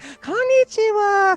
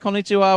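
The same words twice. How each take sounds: First: It is said in a higher, friendlier voice. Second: It is said in an ordinary speaking voice. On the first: This is how people talk on the phone. "they intentionally make their voice higher and more friendly sounding" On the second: This is how people talk normally. "whatever their normal voice is"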